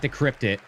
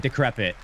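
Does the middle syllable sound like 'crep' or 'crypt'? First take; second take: crypt; crep. First: The middle syllable sounds like 'crypt'. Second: The middle syllable sounds like 'crep'. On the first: The speaker calls it wrong. "Not decryptit" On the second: The speaker calls it right. "Oh, decrepit"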